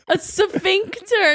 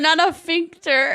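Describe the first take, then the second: First: The word begins with an s sound before f. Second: The word begins with a plain f sound. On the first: The speaker calls it right. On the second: The speaker calls it wrong.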